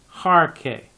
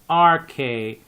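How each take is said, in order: First: The word begins with an h sound. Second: The word begins directly with a vowel sound. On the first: The speaker calls it wrong. "and not harke" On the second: The speaker calls it right. "you have no rough breathing there. That's why you just say arche"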